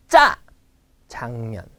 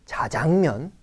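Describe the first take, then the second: First: 짜장면 with a hard tense 짜, then relaxed 장면; correct tense onset. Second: 자장면 with a lax, airy first consonant; wrong soft pronunciation. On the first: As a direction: hit 짜 hard, separate it from 장면. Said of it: "Do you hear the difference". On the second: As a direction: soften the start of 자장면. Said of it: "It's not 자장면". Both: Shown as a demonstration.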